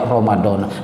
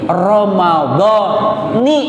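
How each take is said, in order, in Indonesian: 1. Kata ini berakhir dengan vokal a. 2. Kata ini berakhir dengan vokal i. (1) "jangan sampai lagi kedenger" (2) "Jadi yang benar bacanya"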